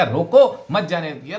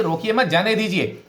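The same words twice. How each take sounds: First: "रोको" punched louder and split from "मत जाने दिया"; stress on रोको. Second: "रोकिए मत" joined and high, then "जाने दीजिए"; group "रोकिए मत", break, then "जाने दीजिए"; break after मत. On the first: Teacher shows the misplaced accent, stress on "रोको". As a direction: hit "रोको", then run the rest together. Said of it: "केवल रोको पर किया". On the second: Teacher shows the intended polite meaning, break after "मत". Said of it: "कहना तो ये चाह रहे हैं". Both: Shown as a demonstration.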